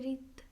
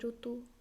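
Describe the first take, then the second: First: The first syllable is pronounced 'ri'. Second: The first syllable is pronounced 'ru'. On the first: This is the Hindi pronunciation. "आप बोलते रित" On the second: This is the Odia pronunciation. "हम बोलते ऋतु"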